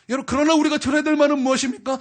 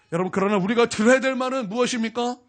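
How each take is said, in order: First: Higher and louder, stress on 우리가; 우리가 punched, louder call to the congregation; emphatic repeat. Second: Said in the usual way. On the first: Acted. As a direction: press the question home on 우리가. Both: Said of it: "repeated louder".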